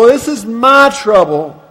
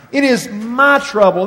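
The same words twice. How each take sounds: First: My punched, louder; stress on MY. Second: Said in the usual way. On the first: Shown as a demonstration. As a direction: lean hard on the word my in This is my trouble. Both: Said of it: "modifies the word trouble with the personal pronoun my".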